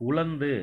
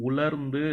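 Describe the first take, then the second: The two takes are said the same way.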